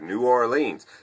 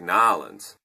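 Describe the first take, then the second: First: The name is said fully, syllable by syllable. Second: The name is squeezed into about two syllables. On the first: This is how outsiders say it. The speaker calls it wrong. "That's how we all say it out here" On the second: This is how locals say it. The speaker calls it right. "that's how you say it there"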